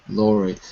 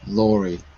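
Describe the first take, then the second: The two takes are said the same way.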